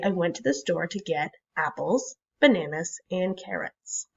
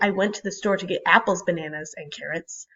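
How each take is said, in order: First: There are short pauses between the list items. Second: The list items run together without pauses. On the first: The speaker calls it right. "I would say" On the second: The speaker calls it wrong. "So I wouldn't say"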